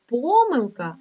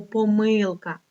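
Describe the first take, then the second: First: Помилка stressed on ПО; stress on first syllable. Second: Помилка stressed on МИЛ; stress on second syllable. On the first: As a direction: lean on the opening syllable of помилка. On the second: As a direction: lean on the middle syllable of помилка. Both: Shown as a demonstration. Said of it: "дві варіації".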